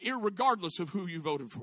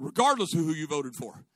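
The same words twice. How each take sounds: First: "irregardless" with an extra "ir-" in front; nonstandard irregardless. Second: "regardless" starting on "re-", without "ir-"; corrected regardless. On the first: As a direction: say "irregardless", adding the needless first syllable. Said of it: "it's not a word". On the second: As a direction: say "regardless", dropping the extra first syllable. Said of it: "I'm sorry". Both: Real, not acted.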